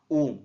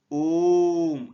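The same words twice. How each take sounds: First: Said in the usual way. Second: ओम drawn out slowly and louder, the vowel held long; prolonged Om. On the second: Shown as a demonstration. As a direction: stretch ओम like a chanted pluta vowel. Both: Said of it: "ऐसा बोलते हैं अपन".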